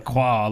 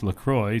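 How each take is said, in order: First: The last syllable is said the French way. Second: The last syllable rhymes with enjoy. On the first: The speaker calls it wrong. "Not La Croix like it would be in the French" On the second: The speaker calls it right. "Officially, it's pronounced LaCroix, so it rhymes with enjoy"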